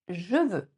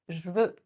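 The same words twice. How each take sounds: First: The vowel of 'je' is fully pronounced. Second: The vowel of 'je' is dropped, contracted. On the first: "un autre exemple de contraction. Je veux" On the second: "On peut le contracter en je veux"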